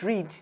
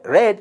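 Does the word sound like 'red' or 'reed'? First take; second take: reed; red. First: The word is said with a long vowel. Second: The word is said with a short vowel. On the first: The action happens in the present. The speaker calls it wrong. "not read" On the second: The action happened in the past. The speaker calls it right. "read, past tense"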